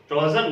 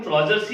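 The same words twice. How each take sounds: First: ट्राउजर ending on r; mistaken singular. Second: ट्राउजर्स with a final s; correct plural form. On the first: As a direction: drop the s from ट्राउजर. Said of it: "ट्राउजर नहीं बोलते हैं". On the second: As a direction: end ट्राउजर्स on an s sound. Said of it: "ट्राउजर्स ही बोलते हैं". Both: Shown as a demonstration.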